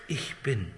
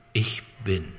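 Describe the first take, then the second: First: „Ich bin.“ lower and softer, hushed and solemn; as Jesus would say it. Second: Said in the usual way. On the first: Shown as a demonstration. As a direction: breathe „Ich bin.“ softly as a holy name. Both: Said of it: "hätte er es so ausgesprochen".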